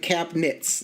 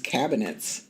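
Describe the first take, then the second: First: The middle syllable is dropped entirely. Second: All three syllables are clearly pronounced. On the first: "we just like skip a whole syllable there" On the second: "actually pronounced out as cabinets"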